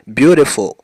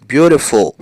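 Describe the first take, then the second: No difference in how they are said.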